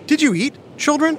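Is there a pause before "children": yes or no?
yes. There is a pause before "children".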